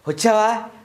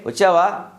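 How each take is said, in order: First: It sounds glad, as if long awaited. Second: It sounds plain, with no special feeling.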